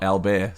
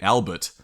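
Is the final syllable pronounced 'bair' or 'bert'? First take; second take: bair; bert. First: It is said the French way, ending in 'bair'. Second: It is said the English way, ending in 'bert'. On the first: This is the town's proper French name. "not Albert" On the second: This is how the soldiers said the town's name. "they just called it Bert. So that suggests to me that they were calling it Albert"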